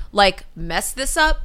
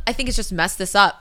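First: Mess this UP, up stressed and rising slowly. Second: Said in the usual way. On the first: Shown as a demonstration. Correcting a politician's phrase, UP stressed slow. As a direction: lean into UP, draw it out. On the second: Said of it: "I think it's simply mess this up".

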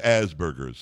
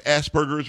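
First: "Asperger's" with a buzzed z, like "as"; "Asperger's" opening on the word as; AZ-burgers pronunciation. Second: "Asperger's" with a hissed s, like "ass"; "Asperger's" opening on the word ass; ASS-burgers pronunciation. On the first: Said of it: "or is it Asperger's?". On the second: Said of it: "is it pronounced Asperger's or is it". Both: Shown as a demonstration.

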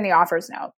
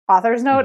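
First: "author's" slipped into sounding like "offers"; slip of the tongue. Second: Said in the usual way. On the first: Real, not acted. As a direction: blur "author's" so it comes out "offers". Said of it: "'cause I just said offers". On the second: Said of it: "Okay, 'cause I just said offers".

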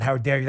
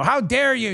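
First: Said in the usual way. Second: High, indignant mock outrage; a mock impression of Geraldo's outrage. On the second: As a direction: squeal it out with fake indignation. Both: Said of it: "He always says that".

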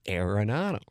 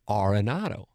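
First: AIR-eh-NAH-do for Arenado; corrected Arenado pronunciation. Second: AR-eh-NAH-do for Arenado; mistaken Arenado pronunciation. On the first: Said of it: "It's Arenado". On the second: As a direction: say Arenado starting with AR as in car. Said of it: "I've been mispronouncing it". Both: Retold or imitated.

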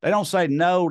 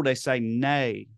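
First: Said in the usual way. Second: "nay" said slowly in a Scottish accent instead of no. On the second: Shown as a demonstration. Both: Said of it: "Talking about the Scots".

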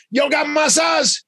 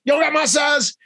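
First: Much higher, slow, drawn-out plea; eager request. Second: Much higher, shouted demand; excited shout. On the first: Michael asking the store for his size, high and drawn out. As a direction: stretch it out, eager to join in. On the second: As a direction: yell it out, fully committed. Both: Retold or imitated. Michael wants the same pants.

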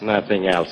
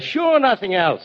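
First: Grumbling echo. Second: High, slow, drawn-out NOTHING ELSE; exasperated retort. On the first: Retold or imitated. Bill parrots Drew's prompt, grumbling low echo. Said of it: "he says". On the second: Acted. Bill answers Drew's question, exasperated and drawn out.

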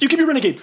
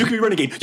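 First: Much higher, louder frantic squeal; desperate panicked plea. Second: Panicked placating. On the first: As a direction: beg him in terror, voice cracking up high. Player repeats, more panicked. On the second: Player panics at thug. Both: Acted.

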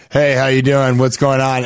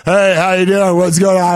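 First: Lightly imitating a man's voice; regular guy's voice. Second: A bit louder imitating a man's casual greeting; mock man's voice, a touch loud; guy's voice. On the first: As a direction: drop into a regular dude voice, lightly. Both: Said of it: "just in a regular guy's voice".

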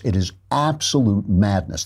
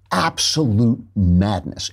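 First: Said in the usual way. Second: Absolute madness, slow with the weight on absolute; slow emphatic stress. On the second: Real, not acted. Host hammering his point about Azaria, slow stress. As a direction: lean hard and slow on absolute.

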